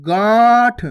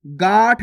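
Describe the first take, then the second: First: गांठ loud, long, through nose and mouth; nasalised vowel. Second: गांठ read as गाठ, short and oral; plain unnasalised vowel. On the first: Teacher correcting learners, long nasalised गांठ. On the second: Teacher showing the wrong reading, short oral गाठ for गांठ. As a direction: say गांठ briefly with no nasal sound. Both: Shown as a demonstration. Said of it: "गांठ नहीं".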